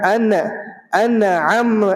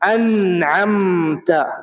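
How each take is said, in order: First: The n sound is repeated before the word. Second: The n sound is said only once. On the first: The speaker calls it wrong. "ये न जो दोबारा निकल रहा है ना, ये नहीं निकलना चाहिए" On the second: The speaker calls it right. "जब मैंने अन्अमता पढ़ा तो नून की आवाज, मीम की आवाज दोबारा निकली? नहीं निकली"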